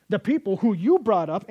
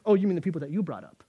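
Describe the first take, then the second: First: Loud, pushing "you" away; God disowning. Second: Quick sarcastic comeback stressing "you"; Moses retorting. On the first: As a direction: say "you brought up" as an accusation. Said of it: "as God says". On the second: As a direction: toss "you brought up" back, fast. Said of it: "and Moses goes". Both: Retold or imitated.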